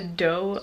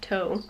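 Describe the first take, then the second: First: The word starts with a D sound. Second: The word starts with a T sound. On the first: The speaker calls it right. "they pronounce it doe" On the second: The speaker calls it wrong. "which I thought was toe"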